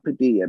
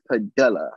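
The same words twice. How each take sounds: First: "Padilla" with the ll as a y, pa-DEE-ya; mistaken Spanish pronunciation. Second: "Padilla" with a hard l, pa-DILL-a; corrected pronunciation. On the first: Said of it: "I keep saying Padilla". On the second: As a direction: say "Padilla" with the ll as a plain l. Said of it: "it's not Padilla". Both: Shown as a demonstration.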